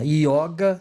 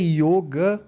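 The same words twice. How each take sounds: First: The first vowel is an open o sound. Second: The first vowel is a closed o sound. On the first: The word is treated as feminine. "significa que é feminina" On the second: The word is treated as masculine. "com acento circunflexo, significa que ela é masculina"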